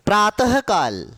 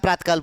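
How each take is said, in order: First: A breathy h follows 'prata' before 'kal'. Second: No h sound follows 'prata' before 'kal'. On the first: The speaker calls it right. "ह का उच्चारण करना है।" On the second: The speaker calls it wrong. "हम प्रातकाल प्रातकाल बोलते, प्रातकाल नहीं होता"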